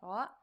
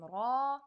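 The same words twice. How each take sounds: First: The vowel is short. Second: The vowel is held longer. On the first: "it has a fatha" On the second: "connect to the alif and become ra"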